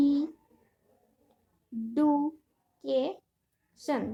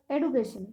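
First: education in four isolated beats, ই, ডু, কে, শন; long pauses between ই, ডু, কে and শন; syllable by syllable. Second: Said in the usual way. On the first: Shown as a demonstration. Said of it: "এখানে চারটি syllable আছে". (Education চার ভাগে থেমে থেমে: ই, ডু, কে, শন) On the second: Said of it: "কয়টি করে syllable আছে".

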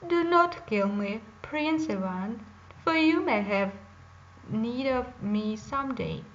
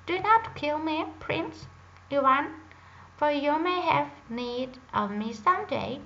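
First: A lightly voiced bear, louder and pleading; talking bear. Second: Higher and louder pleading bird voice; a small bird crying out for mercy; talking drake. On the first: Bear begs Prince Ivan not to shoot, pleading loudly. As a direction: beg the hunter to spare you, a touch loud. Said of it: "the bear spoke in a human voice". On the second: Acted. Drake begs Prince Ivan to spare it, high and loud. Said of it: "the drake said in a human voice".

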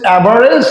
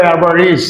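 First: অ্যাভারেজ with "e" in the last syllable; old "-ej" ending. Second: অ্যাভারেজ with long "i" in the last syllable; new "-ij" ending. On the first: Teacher recalling the students' way, অ্যাভারেজ with "-rej". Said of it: "আগে বলছেন". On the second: Teacher showing the corrected way, অ্যাভারেজ with "-reez". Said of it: "এখন বলবো". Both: Shown as a demonstration.

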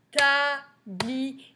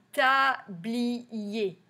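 First: Tablier sing-song in three separate beats, last held; drawn-out syllable count. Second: Tablier in three even beats, usual pitch; syllable by syllable. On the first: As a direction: chant TA, BLI, ER with a long ending. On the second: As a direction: count out TA, BLI, ER. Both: Shown as a demonstration. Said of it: "dans le troisième".

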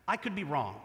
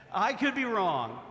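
First: Said in the usual way. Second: I could be wrong, each word spaced and leaned on; slow deliberate call to repeat. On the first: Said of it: "repeat these words after me". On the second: Shown as a demonstration. Pastor slowly models the phrase for the congregation to repeat. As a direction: lead the crowd through the line slowly. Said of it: "could anybody say that?".

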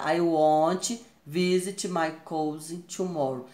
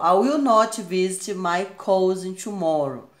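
First: Slow reading using "won't"; slow careful contracted sentence; slow contracted form. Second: Slow reading with will not spelled out; slow careful full-form sentence. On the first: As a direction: contract it to "won't", slowly and clearly. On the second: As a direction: say "will not" as two clear words, slowly. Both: Shown as a demonstration. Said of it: "Aqui, ó, forma contraída".

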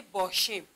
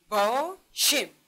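First: Said in the usual way. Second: باشیم very slowly in two beats, با then شیم; drawn-out two-part باشیم for a class; syllable split. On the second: Shown as a demonstration. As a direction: break باشیم after با, with a pause. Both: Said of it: "باشیم هم دو بخش است".

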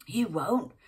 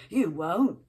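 First: Put-on loud angry snap back in a London accent; snapped back. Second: Loud angry snap; snapped. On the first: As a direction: throw it back at him hard. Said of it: "snapped back Sally". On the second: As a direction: bite the words off in a fight. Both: A narrator's reading.

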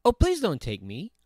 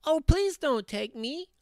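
First: Not-so-small voice. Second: Tiny, very high pleading goat; very small voice. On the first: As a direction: middle goat pleading, moderately high. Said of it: "his voice was not so small". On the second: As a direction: plead as the littlest billy goat. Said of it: "in his very small voice". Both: A narrator's reading.

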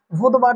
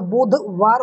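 First: बुधवार run together quickly; wrong form. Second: बुधवार split clearly as "budh - vaar"; correct form. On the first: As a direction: say बुधवार in one quick piece, as the mistaken form. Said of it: "बुधवार नहीं होता". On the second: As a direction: say बुधवार slowly in two firm parts. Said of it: "बुधवार होता है". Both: Shown as a demonstration.

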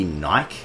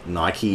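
First: "Nike" rhyming with bike, silent e; "Nike" without the final ee sound; one-syllable pronunciation. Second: Said in the usual way. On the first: Shown as a demonstration. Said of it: "call fucking Nike Nike". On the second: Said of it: "some Australians call fucking Nike Nike".

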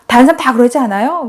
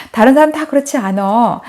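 First: 그러지 않아요 asked as a question, pitched higher. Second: Said in the usual way. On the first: Retold or imitated. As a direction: imitate a pupil checking, 다른 사람 다 그러지 않아요 as a question. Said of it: "그러니까 얘가". (그러지 않아요를 높여 되묻는 아이 말투)

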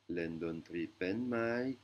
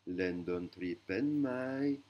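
First: "Len don tri pen mai" repeated slowly with a long rise on "mai"; repeated Thai question. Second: "Len don tri pen mai" very slowly, slightly louder; slow Thai question. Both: Shown as a demonstration. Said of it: "Ce qui veut dire".

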